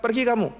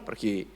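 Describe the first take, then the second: First: "Pergi kamu" high and sharp, pitched well up; mock shooing. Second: Said in the usual way. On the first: Praying man shoos rescuers.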